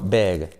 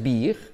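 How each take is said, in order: First: The vowel sounds close to an e. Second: The vowel sounds like a clear i. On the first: The speaker calls it right. "la I como E" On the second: The speaker calls it wrong. "grande no es big"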